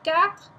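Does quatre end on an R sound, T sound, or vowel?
R sound. The word ends on an R, no vowel. This is a middle way between the two. "you get the R but not the total E at the end"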